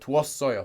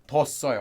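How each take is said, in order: First: The u and o vowels stay as separate syllables. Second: The u and o vowels merge into one syllable. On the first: "you get 두었어요, like that" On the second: "almost pronounced like that"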